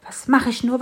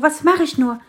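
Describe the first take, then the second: First: High, loud worried sparrow; a little bird wondering what to do, still holding back; first worried ask of "mach"; fretting sparrow. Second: Even higher and louder on "mach", falling off; the repeat boils over into real despair; the sparrow's frantic second cry; more desperate sparrow. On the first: Sparrow frets, repeats. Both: A narrator's reading.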